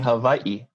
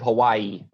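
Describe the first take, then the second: First: A glottal catch separates the final two vowels. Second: The final two vowels run together without a catch. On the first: This is the Hawaiian way of saying it. The speaker calls it right. "It should be Hawaii" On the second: This is the usual English way of saying it. The speaker calls it wrong. "Instead of Hawaii"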